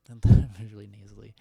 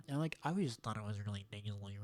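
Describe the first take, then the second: First: Whispered through a laugh; whispered joke about being nasally. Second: Said in the usual way. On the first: Shown as a demonstration. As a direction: breathe it out, giggling.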